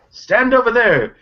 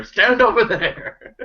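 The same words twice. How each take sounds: First: High, slow barked order; command shout. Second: High, slow shout through laughter; laughing shout. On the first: Acted. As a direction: order him across the room. Shopkeeper orders Dacre to stand. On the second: Retold or imitated. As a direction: yell it while laughing. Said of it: "shout out to Dacre".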